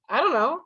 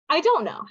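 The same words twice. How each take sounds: First: The words are heavily reduced, nearly mumbled. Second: Do not is contracted to don't. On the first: The speaker is very casual. "But then we get even lazier" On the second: The speaker is a bit casual. "We shorten that to"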